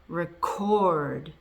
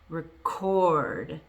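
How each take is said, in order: First: The stress is on the second syllable. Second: The same.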